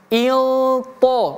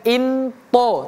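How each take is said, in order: First: The n sound is hidden and blurred. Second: The n sound is clear and distinct. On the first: The speaker calls it right. "Dia juga samar-samar" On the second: The speaker calls it wrong. "bukan into"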